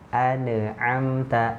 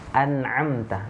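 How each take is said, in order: First: An extra vowel is heard right after the n. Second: The n is held with no vowel after it. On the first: The speaker calls it wrong. "nun itu terpantul sering hurufnya tawallud. Nah, nggak boleh" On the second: The speaker calls it right. "Ini huruf nun sukun nih"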